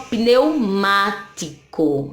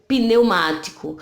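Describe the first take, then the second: First: "pneumático" slowly split pneu, má, ti, co; syllable by syllable. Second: Said in the usual way. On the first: Shown as a demonstration. Teacher showing pneu stays together, "pneumático" slowly in syllables. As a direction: keep pneu together, then pause between syllables of "pneumático". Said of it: "Então, pneu juntinho". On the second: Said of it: "A mesma coisa acontece aqui".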